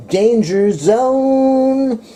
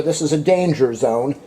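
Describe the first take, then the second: First: Slow, high, drawn-out sung [name]. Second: Said in the usual way. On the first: Shown as a demonstration. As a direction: croon it like the movie song.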